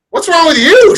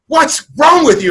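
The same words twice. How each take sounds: First: High, loud bewildered echo; confused echo back. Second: Higher, slow worried wife; wife's alarmed question. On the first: Husband just woken, echoing his wife, high and bewildered. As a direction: throw the question right back, baffled. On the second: Wife shaking him awake, asking alarmed and high. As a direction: voice the startled wife leaning over him. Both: Retold or imitated.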